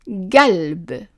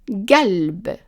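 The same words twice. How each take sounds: First: The word starts with a hard g sound. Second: The word starts with a hard g sound.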